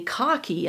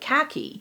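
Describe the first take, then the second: First: The word has a British-style pronunciation. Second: The word has an American-style pronunciation.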